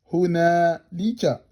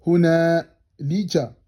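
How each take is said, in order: Both takes have the same delivery.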